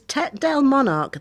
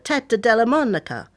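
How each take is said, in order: First: The name is said with an English accent. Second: The name is said with an Italian accent.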